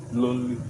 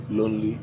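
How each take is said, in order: Both takes have the same delivery.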